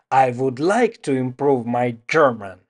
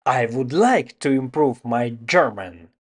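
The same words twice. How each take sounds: The two takes are said the same way.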